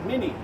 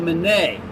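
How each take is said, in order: First: The name is said in an Americanized pronunciation. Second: The name is said in its original, non-American pronunciation. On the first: This is how Americans say the name. "since we're Americans and we win wars, we call it" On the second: This is how the inventor's name is properly said. "a guy with the last name of"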